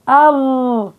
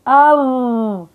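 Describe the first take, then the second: Both takes have the same delivery.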